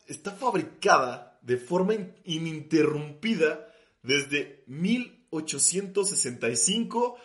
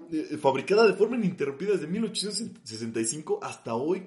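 First: "fabricada de forma ininterrumpida" said slowly, stumbling on "in-"; slow and halting. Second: "fabricada de forma ininterrumpida" rattled off quickly; fast. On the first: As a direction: drag out "ininterrumpida desde mil ochocientos" carefully. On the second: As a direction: rush through "ininterrumpida desde mil ochocientos". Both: Real, not acted. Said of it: "O sea, literal".

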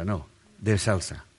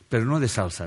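First: "de" stressed, slow and quieter, falling; "de salsa" said slowly, with the stress on "de". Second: "no" stressed with a falling tune; "no" carries the weight, not "de". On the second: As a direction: lean on the word "no" in "Pero no de salsa". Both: Shown as a demonstration.

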